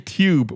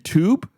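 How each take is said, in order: First: A y-glide or drawn-out oo is added. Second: The vowel is plain without an added glide. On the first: "I add like a Y or a double O in there" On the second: "it's supposed to be"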